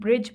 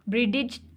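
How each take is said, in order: First: No separate d sound is pronounced in the middle. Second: A separate d sound is pronounced in the middle. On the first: The speaker calls it right. "ब्रिज बोल रहे हैं" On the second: The speaker calls it wrong. "ब्रिडिज तो नहीं बोल रहे हम"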